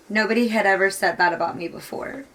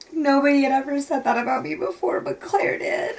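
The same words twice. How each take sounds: First: Said in the usual way. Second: High, tearful voice breaking at the end; crying. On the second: Real, not acted. Reader quoting the girl's line back, crying. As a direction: repeat it through tears, voice giving way.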